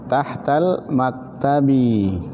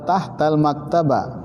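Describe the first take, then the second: First: The last word ends with an i vowel. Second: The last word ends with an a vowel. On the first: The speaker calls it right. "Tapi dibaca apa?" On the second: The speaker calls it wrong. "Jadi jangan dibaca apa?"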